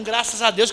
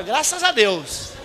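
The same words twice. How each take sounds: First: Said in the usual way. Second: "graças a Deus" drawn out slowly, noncommittal; evasive drawl. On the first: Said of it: "ele tá dando um". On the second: Shown as a demonstration. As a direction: stretch "graças a Deus" to dodge the question. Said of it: "nem sim nem não". ("graças a Deus" arrastado, evasivo)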